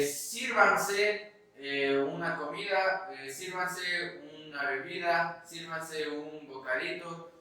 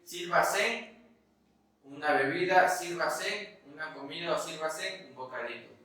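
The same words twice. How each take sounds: First: "sírvanse" with the N before the final syllable; N inside the word. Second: "sírvase" with the N shifted to the end; vulgar metathesis. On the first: Teacher gives students the correct form, "sírvanse" with inner N. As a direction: say "sírvanse" in standard form, SEER-van-seh. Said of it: "La N, si nos damos cuenta". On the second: Teacher demonstrates a vulgarism, "sírvase" ending in a misplaced N. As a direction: say "sírvase" as SEER-va-sen. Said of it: "una expresión vulgar el hecho de decir". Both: Shown as a demonstration.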